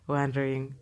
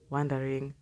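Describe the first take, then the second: No difference in how they are said.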